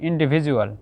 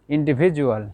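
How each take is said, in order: The two takes are said the same way.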